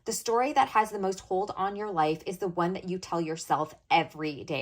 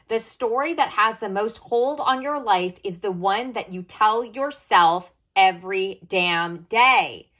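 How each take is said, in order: First: It is said at normal volume. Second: It is said louder.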